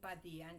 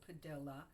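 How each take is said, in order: First: The name is said in a Spanish style. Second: The name is said in an English style. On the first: This is how the speaker wants her name said. The speaker calls it right. "I have to pronounce my name Padilla" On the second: This is how others said her name in grammar school. The speaker calls it wrong. "not like they used to pronounce it when I was in grammar school"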